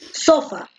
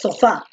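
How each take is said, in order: First: The stress is on the first syllable. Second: The stress is on the last syllable. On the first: The speaker calls it wrong. "tú no dices sofá" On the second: The speaker calls it right. "tú dices sofá, por eso la fuerza de voz recae en la última"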